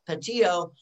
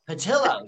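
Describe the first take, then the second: First: The name is said with a Spanish pronunciation. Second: The name is said with an Italian pronunciation. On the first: The speaker calls it wrong. "the Mexican Spanish kind of accent" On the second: The speaker calls it right. "it's the Italian version"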